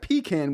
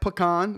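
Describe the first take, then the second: First: The first syllable sounds like 'pee'. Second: The first syllable sounds like 'puh'. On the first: "with the P E" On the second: "with the P U H and the con"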